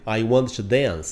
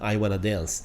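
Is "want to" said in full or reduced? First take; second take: full; reduced. First: "Want to" is said as two full words. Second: "Want to" is blended into one word "wanna". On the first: "Eu sempre digo I want to" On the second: "Ou como a gente pronuncia, né? I wanna"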